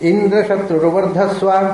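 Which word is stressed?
indra. The stress falls on the word indra. "ಇಂದ್ರನಿಗೆ ಒತ್ತು ಕೊಡಬಹುದು"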